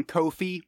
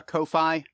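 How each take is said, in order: First: Ko-fi said as KOH-fee; alternative pronunciation. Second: Ko-fi said as KOH-fye; alternative pronunciation. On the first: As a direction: say Ko-fi to rhyme with coffee-like "trophy". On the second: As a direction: say Ko-fi with the end rhyming with "eye". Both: Shown as a demonstration. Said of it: "however you pronounce it".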